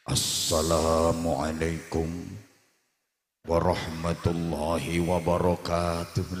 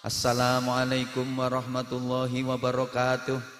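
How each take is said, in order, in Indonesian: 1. Disampaikan dengan gaya orator saat berpidato. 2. Disampaikan dengan gaya pembawa acara. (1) "Pidato beda lagi gayanya" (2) "Lek M C sambutan gayane koyo sing sampean rungokne mau"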